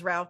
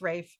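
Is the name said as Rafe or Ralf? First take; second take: Ralf; Rafe. First: The name is said with an L sound. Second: The name is said without an L sound. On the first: "it's spelled as Ralph" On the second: "very posh British pronunciation of Ralph"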